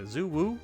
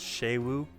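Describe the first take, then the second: First: The name begins with a z sound. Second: The name begins with a sh sound. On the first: This is a guess from reading the spelling. The speaker calls it wrong. "I said Zuwu, because it was like X U" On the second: This is how the game pronounces it. The speaker calls it right. "but I think it's Shei Wu"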